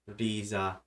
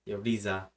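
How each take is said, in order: No difference in how they are said.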